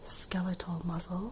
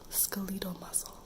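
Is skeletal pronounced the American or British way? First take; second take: American; British. First: Skeletal is pronounced the American way. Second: Skeletal is pronounced the British way. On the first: The speaker calls it right. "you can say skeletal muscle" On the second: The speaker calls it wrong. "British people and Canadian people will say skeletal"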